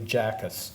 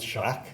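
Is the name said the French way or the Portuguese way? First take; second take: Portuguese; French. First: The name is said the Portuguese way. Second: The name is said the French way. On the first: The speaker calls it right. "the pronunciation of the name is probably Jackus" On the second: The speaker calls it wrong. "it's like a Canadian doesn't know how to pronounce Jacques"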